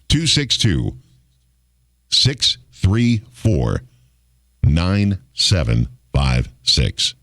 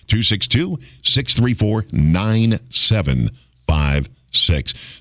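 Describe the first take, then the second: First: The number is said slowly. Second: The number is said fast.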